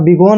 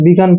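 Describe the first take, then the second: First: The last vowel sounds like 'oh'. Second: The last vowel sounds like 'uh'. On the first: The speaker calls it wrong. "इसको आप बिगोन नहीं पढ़ेंगे" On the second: The speaker calls it right. "बिगन पढ़ेंगे"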